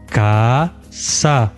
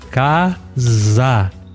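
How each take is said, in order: First: The middle consonant is a voiceless s sound. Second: The middle consonant is a voiced z sound. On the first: The speaker calls it wrong. "Ele tem certeza que ele tá falando casa. Mas ele não está falando casa" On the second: The speaker calls it right. "Não, casa"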